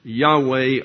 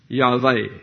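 First: The middle consonant is a w sound. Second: The middle consonant is a v sound.

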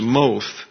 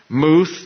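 First: The vowel is a long o sound. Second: The vowel is an oo sound. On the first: The speaker calls it right. "That would be a long O in pronunciation" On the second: The speaker calls it wrong. "I mispronounced the first one"

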